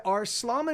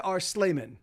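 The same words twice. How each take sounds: First: "Arslaman" with an "ah" in the middle; broad AH vowel. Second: "Arslaman" with an "ay" in the middle; long A vowel. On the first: Streamer asking a viewer about a handle, "Arslaman" with open "ah". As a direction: say "Arslaman" as ars-LAH-man. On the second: Streamer offering the other reading, "Arslaman" with an "ay". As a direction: say "Arslaman" as ars-LAY-man. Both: Shown as a demonstration. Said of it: "or is it Arslaman".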